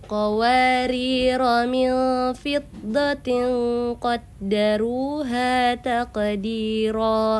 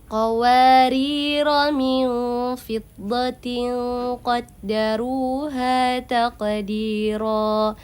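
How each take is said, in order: No difference in how they are said.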